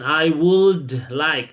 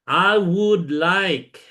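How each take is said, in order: First: The L in 'would' is pronounced. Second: The L in 'would' is silent. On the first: The speaker calls it wrong. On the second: The speaker calls it right. "Nggak pakai L"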